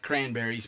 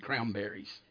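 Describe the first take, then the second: First: The word has its ordinary standard pronunciation. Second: The word has an imitated dialect pronunciation. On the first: "I know it's cranberries" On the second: "but that's how she said it"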